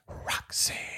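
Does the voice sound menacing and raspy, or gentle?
gentle. It sounds gentler and less menacing, not raspy.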